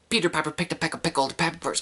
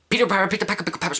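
First: It is said fast. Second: It is said very fast.

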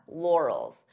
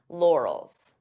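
No difference in how they are said.

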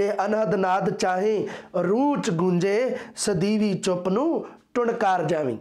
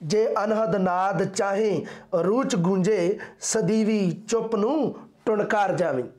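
The two takes are said the same way.

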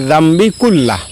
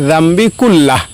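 No difference in how they are said.

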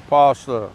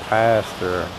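First: The word is said in an Australian accent. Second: The word is said in an American accent. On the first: "In Australia, they say pastor" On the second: "In America, they say pastor or pastor"

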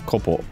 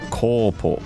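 First: The first syllable is kept short. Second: The first syllable is drawn out long. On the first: The speaker calls it wrong. "instead of kopo" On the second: The speaker calls it right. "It's meant to like elongate the syllable. So it's kopo"

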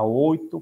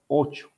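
First: The middle consonant is a plain t sound. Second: The middle consonant sounds like ch.

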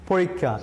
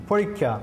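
No difference in how they are said.

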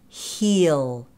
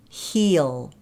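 First: The vowel is a full 'ee' sound. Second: The vowel is a full 'ee' sound.

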